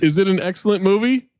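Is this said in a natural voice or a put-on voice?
natural. It is read in a natural speaking voice.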